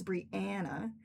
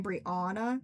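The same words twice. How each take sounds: First: Brianna as bree-ANN-uh; correct pronunciation. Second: Brianna as bree-AW-nuh; common mispronunciation. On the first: Speaker gives her own name correctly, Brianna with "ann". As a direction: middle of Brianna rhymes with "can". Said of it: "It is Brianna". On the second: Speaker shows how most people say her name, Brianna with "aw". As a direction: open "aw" in the middle of Brianna. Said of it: "most people pronounce my name". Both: Shown as a demonstration.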